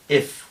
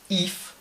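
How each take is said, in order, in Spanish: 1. La vocal es una 'i' corta y laxa, entre la i y la e. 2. La vocal es una 'ee' tensa, al estilo español. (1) "Es una I corta, es este sonido, que es entre I y E" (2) "si esto lo decimos con una I española"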